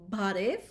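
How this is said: It starts with a voiced B sound.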